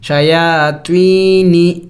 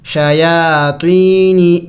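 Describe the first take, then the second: First: شیاطینی slowly, long یا held; careful repeat of شیاطینی; stretched vowel. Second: شیاطینی with the یا drawn out long; teacher drawing out شیاطینی; stretched vowel. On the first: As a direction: hold the یا in شیاطینی longer. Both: Shown as a demonstration. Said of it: "یا کو کھینچنا ہوگا".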